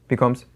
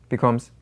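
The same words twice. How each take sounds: No difference in how they are said.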